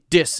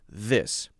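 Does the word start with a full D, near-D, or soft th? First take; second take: full D; soft th. First: The first sound is a full D. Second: The first sound is a soft, gentle th. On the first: The speaker calls it wrong. "It's actually a D sound" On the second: The speaker calls it right. "Very soft, very gentle"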